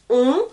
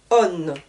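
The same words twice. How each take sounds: First: "on" as a pure nasal vowel, no n sounded; masculine ending -on. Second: "on" said as "onne", with a sounded n; feminine ending -onne. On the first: French teacher showing learners the masculine ending, nasal "on". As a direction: say "on" nasal, leaving the n silent. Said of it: "Le masculin qui se termine en". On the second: French teacher showing learners the feminine ending, "on" said as "onne". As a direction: lower "on", closing on a clear n like "onne". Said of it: "qui au féminin va se terminer en". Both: Shown as a demonstration.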